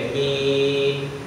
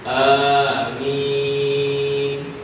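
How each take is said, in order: First: The first vowel sounds like e, not a. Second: The first vowel is held briefly, medium length. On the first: "Diimalahkan a tu tak jadi a, jadi e" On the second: "sebutan a itu dibaca panjang dengan kadar dua harakat"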